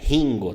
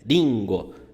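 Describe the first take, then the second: First: The first r is a throaty Portuguese r. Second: The first r is a light tapped r. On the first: The speaker calls it wrong. "não é ringo" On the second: The speaker calls it right. "É ringo. Essa letra aqui tem o som de ri"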